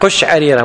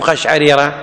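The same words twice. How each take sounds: First: The first vowel is u. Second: The first vowel is a. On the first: The speaker calls it right. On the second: The speaker calls it wrong.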